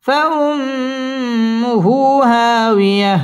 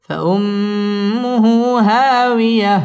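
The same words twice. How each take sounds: First: Higher, very drawn-out فأمه; high recitation. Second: Slow فأمه at normal pitch with nasal hold; lower recitation. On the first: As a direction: stretch فأمه high then drop. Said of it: "wow ঠোঁট গোল করে উচ্চারণ করতে হবে". (উঁচু সুরে টেনে তিলাওয়াত) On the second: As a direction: hold the ghunna, keep it low. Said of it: "ওয়াজিব গুন্না". (নিচু সুরে গুন্না সহ) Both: Shown as a demonstration.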